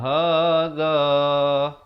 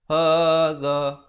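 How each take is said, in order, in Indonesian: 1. Vokal akhir dibaca panjang. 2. Vokal akhir dibaca pendek. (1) "mesti waqaf dengan dua harakat" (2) "tak boleh berhenti anna hadza, hadza, tak betul"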